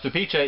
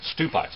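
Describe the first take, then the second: First: It is not read as the spelling suggests. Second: It is read as the English spelling suggests. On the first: The speaker calls it right. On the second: The speaker calls it wrong.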